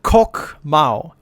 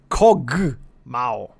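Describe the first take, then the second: First: The first word ends with a k sound. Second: The first word ends with a g sound. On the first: The speaker calls it wrong. "Not Kok Mao" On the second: The speaker calls it right. "It's Kog Mao"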